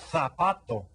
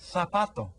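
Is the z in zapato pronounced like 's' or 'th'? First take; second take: th; th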